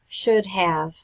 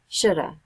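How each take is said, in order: First: Both words are pronounced fully and separately. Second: The second word is reduced to a short uh sound. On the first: The speaker sounds like they have a foreign accent. The speaker calls it wrong. "if you always say should have, you will sound like you are talking with an accent" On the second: This is standard American pronunciation. The speaker calls it right. "commonly pronounced like ... shoulda"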